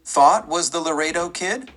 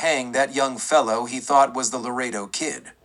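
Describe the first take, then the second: First: A lightly voiced startled exclamation, rising at the end; exclaimed. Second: Said in the usual way. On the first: A narrator's reading. Deputy echoing the sheriff's words, mildly exclaiming. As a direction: toss the words back in mild disbelief. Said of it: "Shaw exclaimed".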